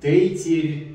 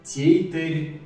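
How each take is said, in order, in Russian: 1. Звуки т и р твёрдые. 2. Звуки т и р твёрдые.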